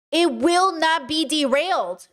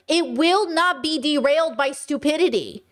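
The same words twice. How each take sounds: First: "It will not be derailed" said slowly, every word weighted; a slow, pointed repeat to drive it home; slow emphatic restatement. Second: Said in the usual way. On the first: Shown as a demonstration.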